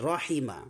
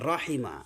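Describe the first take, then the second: No difference in how they are said.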